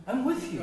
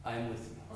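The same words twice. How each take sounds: First: Higher and a bit louder, with weight on with; emphatic promise. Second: Soft and low, a quiet promise; hushed comfort. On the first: Teacher proclaiming God's promise to the class, emphatic and raised. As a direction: proclaim it as the best gospel news. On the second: Teacher softly voicing God's promise to the people, hushed and tender. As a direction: say it gently, like God reassuring a crushed people. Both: Acted.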